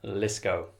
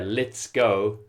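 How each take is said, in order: First: The phrase is shortened and run together. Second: The phrase is said in full, clearly.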